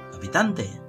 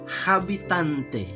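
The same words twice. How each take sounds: First: The starting h is silent. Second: The starting h is sounded out. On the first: This is how the word is read aloud. The speaker calls it right. "tapi dibaca habitante" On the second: This is how the word is written. The speaker calls it wrong. "ditulis habitante"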